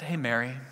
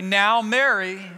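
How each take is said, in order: First: Softer, lower, tender "Hey, Mary."; a quiet, fond word across the table; gentle. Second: Slow, firm "Now, Mary." with a warning edge; a teacher's mild rebuke; "Now, Mary." said slowly, like a stern warning. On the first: Jesus at table with disciples. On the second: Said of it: "get stern with her and say". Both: Acted.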